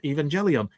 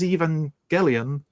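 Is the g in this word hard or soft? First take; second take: soft; hard. First: The g is said soft, as in 'gel'. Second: The g is said hard, as in 'get'. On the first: The speaker calls it wrong. "not Evangelion" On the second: The speaker calls it right. "But this is Evangelion"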